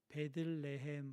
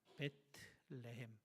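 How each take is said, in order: First: The second syllable is pronounced 'deul'. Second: The second syllable is pronounced 'teu'. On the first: The speaker calls it wrong. "원래는 베들이라고 발음하면 안 되고" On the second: The speaker calls it right. "베트라고 발음을 해야 맞습니다"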